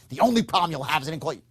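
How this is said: It sounds pushy and intense. The speaker is pressing with certainty. The speaker calls it wrong. "that's not sincerity"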